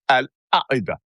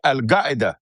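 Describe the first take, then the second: First: Qaeda begins with a glottal stop. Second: Qaeda begins with a hard g sound. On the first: "A glottal stop" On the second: "You change that Q to a G"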